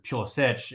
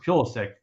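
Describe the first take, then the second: First: The name has a non-American pronunciation. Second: The name has an American pronunciation. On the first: "but it's Pulisic if you" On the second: "it's Pulisic in American"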